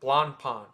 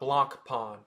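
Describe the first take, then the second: The two takes are said the same way.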